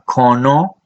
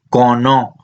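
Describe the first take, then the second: First: The first consonant has a strong puff of breath. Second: The first consonant has no puff of breath. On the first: This is the Chirripó dialect form. "en Cabecar de Chirripó una aspirada" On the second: This is the Ujarrás dialect form. "mientras que en Cabecar de Ujarras es cono"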